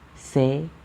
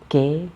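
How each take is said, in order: First: The syllable begins with an s sound. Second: The syllable begins with a k sound. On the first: The speaker calls it right. "like just the letter se in Spanish" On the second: The speaker calls it wrong. "there's one sound ke, ki, maybe because there's one sound ka, but it's not like this"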